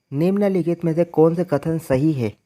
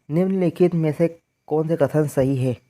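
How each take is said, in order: No difference in how they are said.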